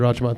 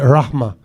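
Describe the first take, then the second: First: The middle consonant is a j sound. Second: The middle consonant is a breathy h sound. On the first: This is how speakers who do pronounce J would say it. "So they would say Rajma" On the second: This is how speakers who don't pronounce J would say it. "they don't they don't pronounce J's"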